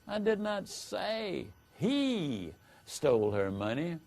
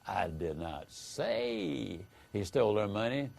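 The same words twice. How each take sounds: First: The stress falls on the word he. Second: The stress falls on the word say. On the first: Someone other than the accused stole it. "implies that someone other than the accused stole the money" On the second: It was implied but not said. "hence that you might have implied it, but you didn't say it"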